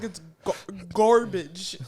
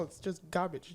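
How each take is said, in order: First: "garbage" loud and drawn out with a full r, "GAR-bidge"; corrective pronunciation. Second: "garbage" soft and quick, r dropped to "gah-bidge"; easy accented pronunciation. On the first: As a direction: correct someone, leaning hard on the r in "garbage". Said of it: "And she was like". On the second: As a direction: let "garbage" roll off casually with no r. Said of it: "It just rolls off your". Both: Retold or imitated.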